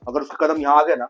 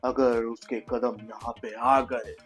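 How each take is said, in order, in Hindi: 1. यह पंक्ति सामान्य गति से बोली गई है। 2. यह पंक्ति बहुत धीरे और खींचकर बोली गई है। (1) "अगर मुझे डायलॉग बोलना भी है" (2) "मतलब सब ऐसे ही बोल रहे हैं, ऐसे कौन बात करता है यार"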